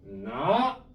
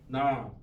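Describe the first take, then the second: First: The pitch starts low and rises high. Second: The pitch stays low throughout. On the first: "얘는 낮았다가 어떻게 발음해라? 높게" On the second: "형성은 낮은 소리야. 그러니까 낮게 발음해야 돼"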